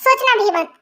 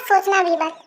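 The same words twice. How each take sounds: First: Said in the usual way. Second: "सोचना भी मत" repeated slowly, each word pressed down; slow emphatic repeat. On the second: Acted. Asked to repeat, he warns his friend slowly and emphatically. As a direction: spell out "सोचना भी मत" slowly so it sinks in. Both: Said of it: "क्या कहा तुमने?".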